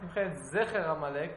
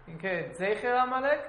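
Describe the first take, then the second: First: The first vowel of Zecher sounds like 'eh'. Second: The first vowel of Zecher sounds like 'ay'. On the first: "with a Segol under the Zayin" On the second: "with a Seire under the Zayin"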